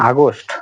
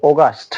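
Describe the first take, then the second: First: আগস্ট said the local "agost"; old wrong way. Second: অগাস্ট said "oh-gast"; British pronunciation. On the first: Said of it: "আগে উচ্চারণ করতাম". (আগের ভুল উচ্চারণে আগস্ট) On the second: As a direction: correct British অগাস্ট, clearly modelled. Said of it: "এর উচ্চারণ হবে". (সঠিক ব্রিটিশ উচ্চারণে অগাস্ট) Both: Shown as a demonstration.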